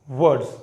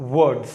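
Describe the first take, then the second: No difference in how they are said.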